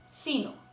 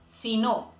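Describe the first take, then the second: First: The stress falls on the first part, si. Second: The stress falls on the second part, no. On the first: It is the adversative conjunction meaning 'but rather'. "podemos distinguir un ligero acento prosódico en la primera sílaba si" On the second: It is a condition meaning 'if not'. "más un adverbio de negación tónico, no"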